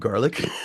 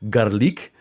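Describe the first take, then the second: First: The word is pronounced in the ordinary standard way. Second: The word is pronounced in an odd, distorted way. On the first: The speaker calls it right. "instead of" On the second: The speaker calls it wrong. "deliberately mispronounces words"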